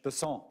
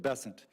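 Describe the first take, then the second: First: The name is given a French pronunciation. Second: The name is given a plain American pronunciation. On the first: "with a French Besant" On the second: "as opposed to Besant. That's what those folks in South Carolina do"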